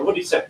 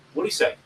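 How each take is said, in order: First: Said in the usual way. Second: Sudden perk-up. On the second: Retold or imitated. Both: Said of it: "Your focus goes".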